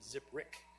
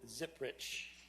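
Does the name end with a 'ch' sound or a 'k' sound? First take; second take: k; ch. First: The name ends with a 'k' sound. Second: The name ends with a 'ch' sound. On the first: The speaker calls it right. "it's pronounced Ziprick" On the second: The speaker calls it wrong. "I'm sorry, I said that wrong"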